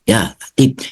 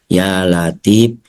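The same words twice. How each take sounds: First: The phrase is recited very quickly, words blurred. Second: The phrase is recited slowly and drawn out. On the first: The recitation finishes in less time. "bisa cepat" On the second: The recitation takes a long time. "baca lambat"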